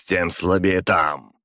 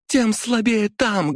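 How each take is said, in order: First: Slow, near own pitch, stressed слабее; villain's calm reply. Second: High, slow stressed тем; high taunting heroine; high defiant woman. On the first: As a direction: answer the taunt coolly. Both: A narrator's reading.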